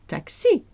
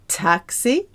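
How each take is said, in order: First: The stress is on the last syllable. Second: The stress is on the first syllable. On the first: "The French say taxi" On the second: "We say taxi"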